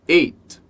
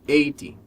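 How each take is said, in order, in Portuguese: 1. Termina limpo no som do t final. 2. Termina com um som de vogal ee acrescentado. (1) "o número eight" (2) "Às vezes costuma ouvir eighty"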